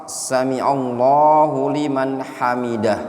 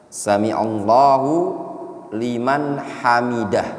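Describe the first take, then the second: No difference in how they are said.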